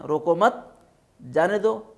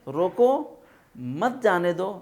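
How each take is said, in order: First: There is a pause right after 'mat'. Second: There is a pause right after 'roko'.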